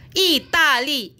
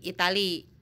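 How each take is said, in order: First: Slow "Itali" with a long final i; Mandarin reading. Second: Said in the usual way. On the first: Shown as a demonstration. Teacher reads "Itali" off the slide. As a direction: read "Itali" slowly, Mandarin style.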